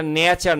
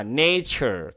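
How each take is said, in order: First: নেচার with a plain Bangla t sound, the wrong way; নেচার read flat in Bangla style; wrong pronunciation. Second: নেচার said the right way, with ch; correct pronunciation. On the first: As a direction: say নেচার as a learner mistake. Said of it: "এটা নেচার না". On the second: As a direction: say নেচার with the ছ sound in the middle. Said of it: "ছ, এই উচ্চারণটা হবে". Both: Shown as a demonstration.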